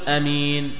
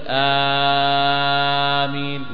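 First: The first vowel is short and not lengthened. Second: The first vowel is stretched very long. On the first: "لا تقول أمين بدون مد" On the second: "ولا تمده كثير، لا تقول آمين"

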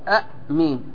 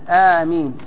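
First: The first vowel is short. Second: The first vowel is long. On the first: "القصر أن ينطق هكذا" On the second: "بالمد"

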